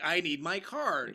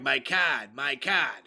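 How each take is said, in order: First: Slow, careful "I need my card", the R in "card" said clearly; enunciating "card" slowly with a clear R; enunciated. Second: "card" without the R, said twice, Boston style; Boston accent, "my cahd"; Boston accent, repeated. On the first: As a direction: spell out "card" with a full R, slowly. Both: Retold or imitated. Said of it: "I had to enunciate".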